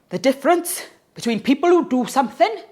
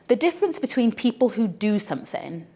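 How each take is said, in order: First: It is said in a thick Welsh accent. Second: It is said in the speaker's ordinary accent.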